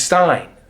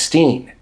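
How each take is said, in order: First: The vowel rhymes with 'mine'. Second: The vowel rhymes with 'mean'. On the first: "one guy is Stein" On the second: "the other guy is Steen"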